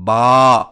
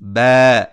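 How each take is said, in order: First: The vowel is raised and the mouth opened wide. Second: The vowel is lowered and flattened toward 'ai'. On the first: "अलिफ में आवाज को खूब उठाना और मुंह को सख्ती से खोलना" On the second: "आवाज को ज्यादा गिराना और मुंह को झुकाना"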